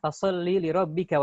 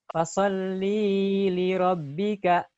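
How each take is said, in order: First: The vowel of "li" is short. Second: The vowel of "li" is drawn out long. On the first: The speaker calls it right. "Harusnya dibaca pendek" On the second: The speaker calls it wrong. "banyak orang yang baca fasholli, li-nya panjang"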